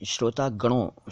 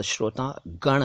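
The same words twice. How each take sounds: First: श्रोता गणों ending in nasal -on; mistaken plural ending. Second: श्रोता गण slowly, ending on n; correct bare ending. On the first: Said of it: "शब्द गलत है". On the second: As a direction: say गण with no final o. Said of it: "और श्रोता गण है". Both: Shown as a demonstration.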